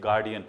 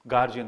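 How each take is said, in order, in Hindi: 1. बीच का व्यंजन 'd' ध्वनि है। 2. बीच का व्यंजन 'j' ध्वनि है। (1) "it's गार्डियन only" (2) "there is no word like गार्जियन"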